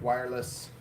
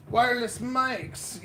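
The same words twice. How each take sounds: First: Said in the usual way. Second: Wireless mics, higher and slow with a falling finish; mock excited. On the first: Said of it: "it's very exciting". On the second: Shown as a demonstration. Streamer hyping new mics, mock excited. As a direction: draw out wireless like big news. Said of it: "Yeah, it's very exciting".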